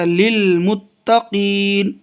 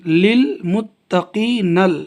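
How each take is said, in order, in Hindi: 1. शब्द बिना स्वर वाले, साइलेंट 'n' पर खत्म होता है। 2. शब्द के अंत में एक जोड़ा हुआ 'na' अक्षर है। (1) "आगे आयत ठहर जाएंगे ... नून साकिन हो जाएगा" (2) "लिलमुत्तकी नल जब मिला के पढ़ेंगे"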